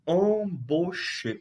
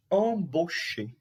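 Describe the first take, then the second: First: Embaucher drawn out slowly, nasal "em" and "cher" as "shay"; slow French demo. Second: Embaucher again slow and clear, "ahn-bo-shay"; slow French demo. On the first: Teacher to class, slowly modelling Embaucher. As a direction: spell out Embaucher slowly, syllable by syllable. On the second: Teacher repeating Embaucher slowly for students. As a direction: model Embaucher slowly for the class. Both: Shown as a demonstration. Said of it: "Olha a pronúncia".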